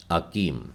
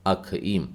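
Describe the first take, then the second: First: Said in the usual way. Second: अखीम with an aspirated kh sound, akheem; अखीम said the Hebrew way with a breathy kh; Hebrew pronunciation. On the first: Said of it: "Hindi Bible में इसे अकीम शब्द से संबोधित". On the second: Shown as a demonstration. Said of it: "मतलब खी का उच्चारण आएगा".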